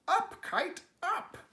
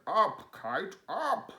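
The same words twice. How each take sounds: First: High, loud cheering shout. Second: Louder call, rising high on the last up; shouted. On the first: Frog showing Toad how to shout the kite up, high and loud. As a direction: yell it up at the sky. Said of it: "and shout". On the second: Toad shouting at his kite, loud and rising. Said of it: "He shouted". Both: Acted.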